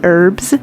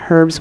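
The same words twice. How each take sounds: First: The word begins with a vowel, no H. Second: The word begins with an audible H sound. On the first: "say it just with the E" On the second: "say herbs with an H"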